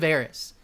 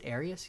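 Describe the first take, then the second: First: The name is said with two syllables, Eris. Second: The name is said with three syllables, Arius. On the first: The speaker calls it right. "It's Eris" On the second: The speaker calls it wrong. "I may be mispronouncing that. Age of uh, is it Arius?"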